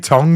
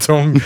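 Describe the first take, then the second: First: The word is said in his usual pronunciation. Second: The word is said in another, imitated pronunciation. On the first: This is how the speaker normally says it. The speaker calls it right. "I say tongue" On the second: This is how someone else said it. The speaker calls it wrong. "not tongue"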